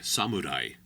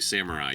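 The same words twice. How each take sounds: First: The R is a quick tapped R. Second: The R is an English-style R. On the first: The speaker calls it right. "you say samurai" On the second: The speaker calls it wrong. "you don't say samurai"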